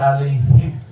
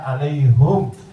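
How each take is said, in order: First: The final syllable has an i vowel. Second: The final syllable has a u vowel.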